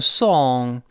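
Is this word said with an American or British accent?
British. It is said with rounded, pushed-out lips. "英国人会读成song，有个撅嘴的动作"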